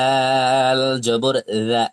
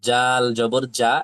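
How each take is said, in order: First: The letter starts with a soft th sound. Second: The letter starts with a hard j sound. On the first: The speaker calls it right. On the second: The speaker calls it wrong.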